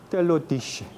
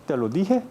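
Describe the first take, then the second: First: "te lo dije" with dije as dishe; medieval sh sound. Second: Said in the usual way. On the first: Shown as a demonstration. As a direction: turn the j of "dije" into sh. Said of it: "sino como". ("dije" como dishe) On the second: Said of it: "no debe pronunciar como".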